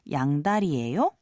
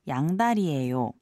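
First: The voice rises at the end. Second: The voice does not rise at the end.

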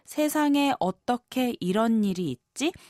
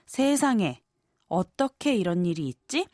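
First: The sentence runs on without a break. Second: A break follows the first word, said as exclamation. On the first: It asks how this could happen in this world. "Meaning, how can this happen in this world?" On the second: It is an exclamation of shock before the question. "Which would mean, oh my goodness, how could such thing happen?"

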